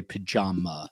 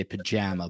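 First: Pajama with JAH, an open ah; Jersey pronunciation. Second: Pajama with JAM as in strawberry jam; Utah-Arizona pronunciation. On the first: Host showing how Jersey says it, broad "pajama". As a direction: say "pajama" as puh-JAH-muh. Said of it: "in Jersey we say pajama". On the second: Host showing how Utah says it, Western "pajama". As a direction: say "pajama" with a short flat A, puh-JAM-uh. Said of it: "I think you say pajama". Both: Shown as a demonstration.

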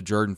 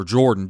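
First: Jordan said as JUR-dun; alternative pronunciation. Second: Jordan said as JOR-dun; alternative pronunciation. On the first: Host recalling a family visit, Jordan pronounced JUR-dun. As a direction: say Jordan with an "er" in the first syllable. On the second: Host correcting the family name, Jordan pronounced JOR-dun. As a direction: say Jordan with an "or" in the first syllable. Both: Shown as a demonstration. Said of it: "however you say it".

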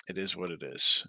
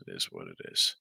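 First: Said in the usual way. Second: Much lower, a put-on deep voice; mock deep voice. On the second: Host shrugging off a mistake, in a mock deep voice. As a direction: drop way down into a comic low voice.

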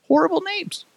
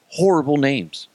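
First: Very high-pitched little voice; squeaky repeat. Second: Said in the usual way. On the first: Acted. Comic hammering his verdict on team names, in falsetto.

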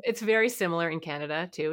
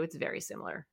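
First: Said in the usual way. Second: Whispered repeat under the breath; whispered aside. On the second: Real, not acted. Repeats the point softly.

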